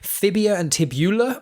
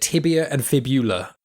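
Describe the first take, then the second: First: The first word begins with an F sound. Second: The first word begins with a T sound. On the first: The speaker calls it wrong. "I always pronounce them wrong" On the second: The speaker calls it right.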